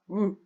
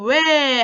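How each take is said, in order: First: The vowel keeps one quality from start to end. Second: The vowel glides, changing quality partway through. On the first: The speaker calls it right. "입술 동그랗게 모은 상태로" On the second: The speaker calls it wrong. "요것도 왜 하면 안 됩니다"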